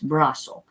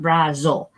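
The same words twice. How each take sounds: First: The middle consonant is a hissing s sound. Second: The middle consonant is a buzzing z sound. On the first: The speaker calls it right. "So it has an S sound here" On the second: The speaker calls it wrong. "we don't like the vibrations with Z's either. It's not brazo"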